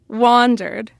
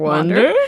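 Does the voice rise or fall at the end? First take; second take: fall; rise. First: It falls at the end like a statement. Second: It rises at the end like a question.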